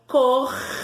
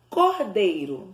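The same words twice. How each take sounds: First: "Cordeiro" in three long syllables with pauses; separated syllables. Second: Said in the usual way. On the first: Shown as a demonstration. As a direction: stretch COR, then DEI, then RO. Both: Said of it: "Vamos separar?".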